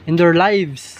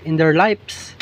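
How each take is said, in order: Both takes have the same delivery.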